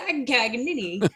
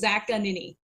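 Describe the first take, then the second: First: A hard G sound is heard mid-name. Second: No G sound is heard mid-name. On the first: The speaker calls it wrong. "they either overpronounce the G, like Siri" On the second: The speaker calls it right. "the Americanized at least version"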